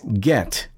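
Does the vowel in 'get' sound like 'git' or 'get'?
get. The vowel sounds like 'get'. The speaker calls it right. "Standard American English"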